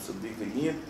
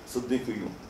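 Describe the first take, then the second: First: The word ends with the vowel 'i' before n. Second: The word ends with the vowel 'u' before n. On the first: This is the correct Arabic form. "instead of Siddiqiyin" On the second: This follows how a revered teacher pronounced it. "he say Siddiqiyun"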